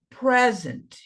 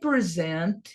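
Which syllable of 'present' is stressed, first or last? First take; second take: first; last. First: The stress is on the first syllable. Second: The stress is on the last syllable. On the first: It is a noun. "essa aqui é a sílaba mais forte, é a primeira. Paroxítona" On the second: It is a verb. "esse pedacinho aqui é o mais forte, é o último, é oxítona"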